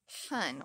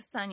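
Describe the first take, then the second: First: The s sound is mushy, like sh. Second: The s sound is clear and sharp. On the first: The speaker calls it wrong. "It's when the S sounds mushy" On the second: The speaker calls it right. "instead of sun"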